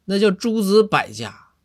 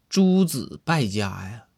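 First: 诸子百家 corrected slowly, with 百 as bǎi; higher, louder and slower 诸子百家 to set it right; correct pronunciation. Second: 诸子败家 said slowly, with 百 pronounced 败 bài; slow, deliberate 诸子败家 as if in a regional accent; odd local accent. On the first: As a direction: spell out 诸子百家 with bǎi, exasperated. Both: Acted. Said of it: "是你这还是个外地口音".

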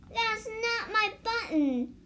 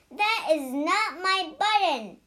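First: A hint of a wail of dismay. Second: Louder storybook shout at Frog. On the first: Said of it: "wailed Toad". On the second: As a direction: shout it out in frustration. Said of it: "shouted Toad". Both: A narrator's reading.

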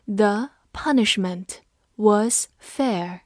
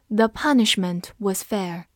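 First: The punishment was fair said slowly, each word spaced out; slow reading. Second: Said in the usual way. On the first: Shown as a demonstration. Teacher slowly reading the sentence aloud for students. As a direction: read it slowly for the class to follow. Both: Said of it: "这句话我们慢读一遍".

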